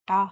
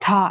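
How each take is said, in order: First: The t is hard with the tongue curled back. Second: The t is breathy with a puff of air. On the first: "इस तरह से भी नहीं पढ़ना" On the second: "था ऐसे नहीं पढ़ना"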